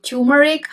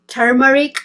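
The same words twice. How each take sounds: First: Turmeric said as TYOO-muh-rik; turmeric, opening like the word "tune"; TYOO-meric pronunciation. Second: Turmeric said as TER-muh-rik; turmeric, opening like the word "term"; TER-meric pronunciation. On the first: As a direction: drop the first r in turmeric, "tyoo". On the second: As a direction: sound the first r in turmeric. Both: Shown as a demonstration. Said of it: "Some people call it".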